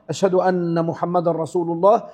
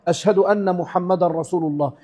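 No difference in how they are said.

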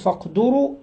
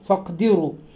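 First: The vowel after the d is u. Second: The vowel after the d is i. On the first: "وضم الدال" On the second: "وكسرها"

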